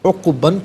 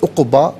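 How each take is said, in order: First: The word ends with an n sound. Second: The word ends with a long a vowel. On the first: The reading continues without a stop. "उक़बन पढ़ेंगे" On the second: The reader stops at this word. "वफ़ की सूरत में उक़बा पढ़ा जाएगा"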